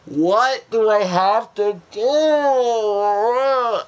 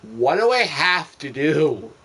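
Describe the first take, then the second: First: Much higher and louder, very slow and stretched; a long exasperated shout, every word dragged; drawn-out frustrated yell. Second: Said in the usual way. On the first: Real, not acted. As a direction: howl it at the ceiling. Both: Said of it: "repeated louder".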